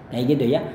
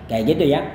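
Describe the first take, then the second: No difference in how they are said.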